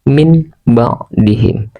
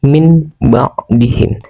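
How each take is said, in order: First: The nasal before the b sounds like n. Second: The same.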